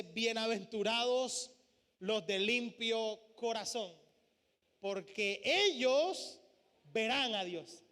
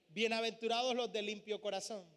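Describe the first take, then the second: First: Slow, solemn words with long pauses; lingering on each phrase like holy text; slow scripture reading. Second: Said in the usual way. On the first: Shown as a demonstration. Preacher to congregation reading the beatitude, slow and solemn. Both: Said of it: "Una de las bienaventuranzas dice".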